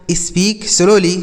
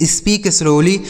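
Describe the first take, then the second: First: Slow demo. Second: Said in the usual way. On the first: Shown as a demonstration. Teacher repeating for children, very slow. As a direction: Speak slowly, each word drawn out very slowly.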